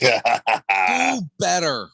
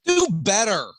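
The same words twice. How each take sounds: First: Very slow, loud "Do better"; drawn-out catchphrase. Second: Loud, higher punchy "Do better"; catchphrase on request. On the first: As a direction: stretch the slogan out. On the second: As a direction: snap the slogan out loud. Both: Acted. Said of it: "[name], can I get one?".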